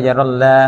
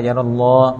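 First: "ยารัลลา" with a light open "llah"; wrong thin Allah. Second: "ยารัลลอฮ์" with a heavy rounded "lloh"; correct thick Allah. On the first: Teacher showing what to avoid, thin lam. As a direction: keep the ending of "ยารัลลา" thin. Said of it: "อย่าอ่านว่ายารัลลา". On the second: Teacher showing the right reading, thick lam. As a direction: darken the l and vowel in "ยารัลลอฮ์". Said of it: "่านว่ายารัลลอฮ์". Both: Shown as a demonstration.

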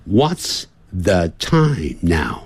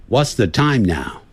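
First: "What's the time now?" drawn out slowly, word by word; slow teaching demo. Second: Said in the usual way. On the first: Shown as a demonstration. Teacher modelling "What's the time now?" slowly for students.

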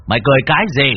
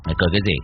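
First: Louder, forceful demand; stern demand. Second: Low, contained stern question; stern challenge. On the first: Cậu repeats the challenge to the possessed man, louder stern demand. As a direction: raise the voice and punch the question out. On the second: Cậu confronts the possessed man, low stern challenge. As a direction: ask it sternly, without raising the voice. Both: A narrator's reading. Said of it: "Cậu Tẩy nghiêm mặt".

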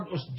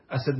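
First: "أسد" said usd, opening on u; short u starting "أسد"; plural with damma. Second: "أسد" said asad, opening on a; two short a vowels in "أسد"; singular with fatha. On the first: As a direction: say "أسد" as USD, one syllable. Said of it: "جمع". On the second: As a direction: say "أسد" as A-sad. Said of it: "مفرد". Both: Shown as a demonstration.

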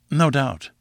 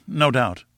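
First: Mild humouring tone. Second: Soothing, humouring repeat. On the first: Narrator humouring the boastful professor, mildly. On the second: Narrator humouring the professor a second time, mildly. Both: A narrator's reading. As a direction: humour him like a fool. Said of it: "as one humours an imbecile".

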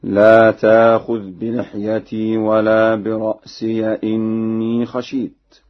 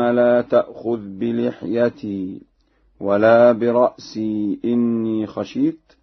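First: "برأسي" ending in -siya before "إني"; slow, loud recitation, open ya with an a at the end of "برأسي"; Warsh reading. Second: Said in the usual way. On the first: Shown as a demonstration. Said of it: "بفتح ياء الإضافة هكذا". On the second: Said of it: "بفتح ياء الإضافة".

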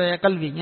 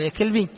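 First: Said in the usual way. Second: "يا كلبي" with a front k replacing qaf; qaf as kaf. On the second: Shown as a demonstration. Teacher jokes on a wife's endearment, "يا كلبي" with k for qaf. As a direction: say "يا كلبي" with k where q belongs. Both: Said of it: "وحط بدل القاف كاف".

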